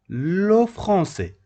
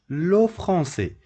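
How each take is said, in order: The two takes are said the same way.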